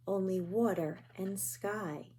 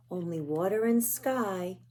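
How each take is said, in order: First: Much softer, dying away; a quiet echo as night falls; hushed fading repeat. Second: Said in the usual way. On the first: A narrator's reading. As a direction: let it fade to almost nothing.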